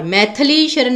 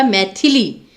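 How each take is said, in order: First: मैथिली as "maithalee"; missing i. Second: मैथिली as "maithilee"; short i after th. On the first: Teacher showing the misspelling, मैथिली with "tha". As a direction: say मैथिली Sharan with "tha" for "thi". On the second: Teacher correcting students, मैथिली with short i in the middle. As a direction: sound "thi" clearly in मैथिली. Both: Shown as a demonstration. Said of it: "थ को भी छोटी की मात्रा".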